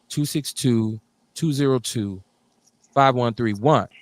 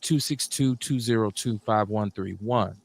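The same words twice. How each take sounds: First: The number is read at a slower pace. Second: The number is read at a quicker pace.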